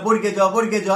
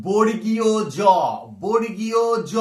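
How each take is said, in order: First: বর্গে জ run together as "borge-jo", missing the "iyo"; wrong letter name. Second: বর্গীয় জ drawn out as "bor-gi-yo jo"; correct letter name. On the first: Retold or imitated. Teacher showing students the name to avoid, shortened form. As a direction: say বর্গে জ quickly as two short words. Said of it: "এটা নয়". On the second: Shown as a demonstration. Teacher giving students the original name, fully sounded out. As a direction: say every syllable of বর্গীয় জ, firmly and slowly. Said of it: "উচ্চারণটা".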